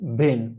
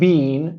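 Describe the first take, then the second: First: The vowel is a short, relaxed E sound. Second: The vowel is a long, tense E sound. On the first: The speaker calls it right. "but been" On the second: The speaker calls it wrong. "Not being"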